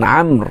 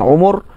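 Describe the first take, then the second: First: One syllable, beginning with an a vowel. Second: Two syllables, both with an u vowel. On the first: "boleh baca dengan amr" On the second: "boleh baca dengan umur"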